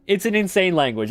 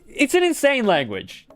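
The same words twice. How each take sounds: First: Said in the usual way. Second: High, exaggerated disbelief; exasperated exclamation. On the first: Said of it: "repeated more calmly". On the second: Streamer mocks the German language in a high exasperated voice. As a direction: throw it up high in mock despair. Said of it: "repeated exasperated remark".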